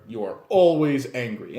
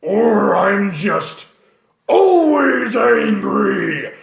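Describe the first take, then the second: First: Said in the usual way. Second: Very slow, loud raging bellow; angry half-orc. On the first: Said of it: "You know, half-orcs". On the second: Shown as a demonstration. Half-orc raging at everyone, slow loud bellow. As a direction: roar it like you're always furious. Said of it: "half-orcs, you are always angry".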